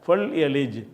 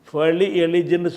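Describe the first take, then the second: First: The l closes the syllable with no vowel. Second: The l is followed by a short i vowel. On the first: The speaker calls it right. "இப்படி சொல்லுவாங்க" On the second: The speaker calls it wrong. "ஃபொலி எலிஜின்னு சொல்லாமல்"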